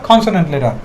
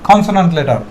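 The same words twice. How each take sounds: No difference in how they are said.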